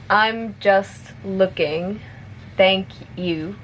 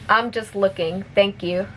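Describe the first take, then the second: First: It is spoken at a moderate pace. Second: It is spoken at a fast pace. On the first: "a little bit faster" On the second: "one more time at normal speed"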